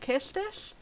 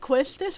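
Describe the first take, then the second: First: The name begins with a plain 'k' sound. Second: The name begins with a 'kw' sound. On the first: "I've heard people say it should be called Kistis" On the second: "I just assumed it was pronounced how it was spelled"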